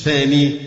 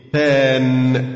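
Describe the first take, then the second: First: ثاني said with a long final i, the wrong form; ثاني with long ee at the end, marked as the mistake; wrong form thani. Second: ثان cut short with no final i, the correct form; ثان stressed and clipped at the n, given as the model answer; correct form than. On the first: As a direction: say ثاني ending in the i sound, the form the teacher rejects. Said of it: "ما تقولش ثاني بقى". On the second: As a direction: end ثان on the n with nothing after it. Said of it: "يبقى نقول مفعول به ثان". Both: Shown as a demonstration.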